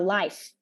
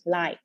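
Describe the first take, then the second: First: The word ends with an F sound. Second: The word ends without an F sound. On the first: The speaker calls it right. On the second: The speaker calls it wrong.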